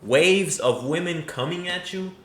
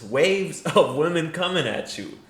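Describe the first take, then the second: First: Incredulous echo. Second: Laughing through the phrase; mocking repeat broken by a laugh; laughing echo. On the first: Retold or imitated. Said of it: "Come on, brother". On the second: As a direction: laugh while quoting it back. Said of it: "I don't even think he believes this".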